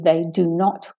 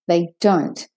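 First: The words are said in full, uncontracted. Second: The words are said as a contraction. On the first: The speaker calls it wrong. "I don't want to hear they do not" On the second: The speaker calls it right. "So don't avoid it"

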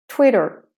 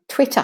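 First: The word ends with a light R sound. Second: The word ends with a schwa, no R. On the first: "Twitter for the American" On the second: "Twitter for the Australian and British"

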